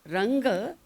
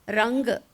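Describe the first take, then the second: Both takes have the same delivery.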